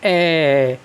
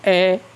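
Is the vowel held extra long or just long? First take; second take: extra long; long. First: The vowel is stretched out extra long. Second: The vowel is held long but not prolonged. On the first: "यानी कि अधिक समय लगेगा" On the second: "दीर्घ ए को तो हम बोलते हैं क्या"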